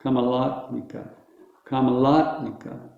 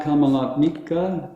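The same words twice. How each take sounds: First: "Kamalatmika" with long LA, light ending; stress on LAT. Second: "Kamalatmika" with weight toward MIKA; wrong end stress. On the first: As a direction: hit only LA in "Kamalatmika". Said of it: "there's only one emphasis". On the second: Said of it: "so it's not Kamalatmika". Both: Shown as a demonstration.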